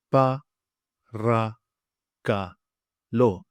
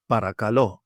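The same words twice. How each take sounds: First: "Pa, ra, ka, lo" in four separate beats; syllable by syllable. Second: "Paracalo" as one word, stressed on the last syllable; stress on final LO. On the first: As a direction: break it up, clear pause between syllables. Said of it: "I'll say it for you now". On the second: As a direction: blend "Paracalo" and land on the final lo. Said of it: "So also notice the stress". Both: Shown as a demonstration.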